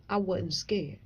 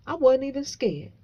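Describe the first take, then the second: First: Said in the usual way. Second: Higher, louder, punching "wasn't"; proud emphatic declaration; emphatic boast. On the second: Real, not acted. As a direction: brag it loudly. Boasting about facing the lions.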